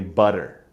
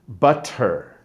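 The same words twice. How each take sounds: First: The middle sound is a D-like flap. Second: The middle sound is a clear T.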